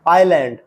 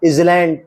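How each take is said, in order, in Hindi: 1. 'l' से पहले कोई व्यंजन सुनाई नहीं देता। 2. 'l' से पहले 'z' की ध्वनि सुनाई देती है। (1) "ये है" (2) "नहीं है"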